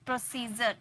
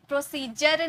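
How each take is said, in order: First: प्रोसीजर with a soft zh sound, "pro-see-zhar"; correct pronunciation. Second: प्रोसीजर said with a hard j, "pro-see-jar"; wrong pronunciation. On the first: Teacher gives students the correct प्रोसीजर with a zh sound. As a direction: show the right way, प्रोसीजर softly with zh. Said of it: "ज का sound आ रहा है". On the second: Teacher shows students the mistake, प्रोसीजर with a hard j. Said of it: "प्रोसीजर नहीं". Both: Shown as a demonstration.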